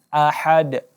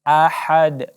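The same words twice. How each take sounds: Both takes have the same delivery.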